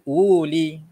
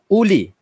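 First: A 'w' sound is heard in the word. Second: No 'w' sound is heard in the word. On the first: The speaker calls it wrong. "bukan uli. Ha, itu kurang tepat" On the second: The speaker calls it right. "Yang betulnya ialah uli. Seolah-olahnya huruf waw itu tak ada"

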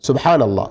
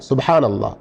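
No difference in how they are said.

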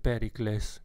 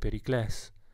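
First: It is stressed the Latin way. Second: It is stressed the Greek way. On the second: "ma in greco sarebbe Pericles"

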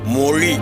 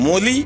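First: The middle consonant is a retroflex zh sound. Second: The middle consonant is a plain l sound. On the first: The speaker calls it right. "அந்த ழீயில் சிறப்பு ழகரத்தை போட்டு உச்சரிக்க வேண்டும்" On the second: The speaker calls it wrong. "மொழி அல்ல தோழரே"

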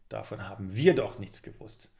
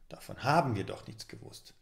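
First: The stress falls on the word wir. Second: The stress falls on the word haben.

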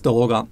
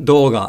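First: The pitch stays flat with no drop. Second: The pitch drops after an accented mora. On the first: The speaker calls it right. "it's dōga" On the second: The speaker calls it wrong. "It's not dōga"

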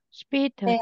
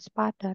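First: The first vowel sounds like e. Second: The first vowel sounds like a. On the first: The speaker calls it right. "bacanya menjadi seperti E gitu" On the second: The speaker calls it wrong. "bukan spader"

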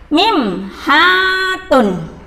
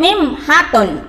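First: The vowel in 'ha' is held long. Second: The vowel in 'ha' is cut short. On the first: The speaker calls it right. "Haknya panjang" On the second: The speaker calls it wrong. "Gak boleh mim hatun, gak boleh"

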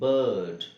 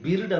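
First: The vowel is a central 'er' sound. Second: The vowel is a short 'ih' sound. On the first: The speaker calls it right. "B I R D ಬರ್ಡ್" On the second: The speaker calls it wrong. "ಬಿರ್ಡ್ ಅಂತ ಆಗಲ್ಲ"

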